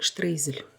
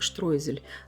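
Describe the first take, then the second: First: The first syllable has an 'ey' sound. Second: The first syllable has an 'oy' sound. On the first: This is how it sounds in Russian. "в русской транскрипции ... произносится как штрейзель" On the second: This is how it sounds in German. "В немецкой транскрипции произносится как штройзель"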